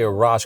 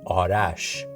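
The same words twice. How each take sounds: First: The name is said with an American pronunciation. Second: The name is said with a Persian pronunciation. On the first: This form is easier for others to say. "I say Arash because I Americanized it" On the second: This is the original form of the name. "my correct pronunciation of my name is"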